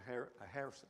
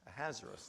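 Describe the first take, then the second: First: The stress is not on the second syllable. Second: The stress is on the second syllable. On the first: The speaker calls it wrong. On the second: The speaker calls it right.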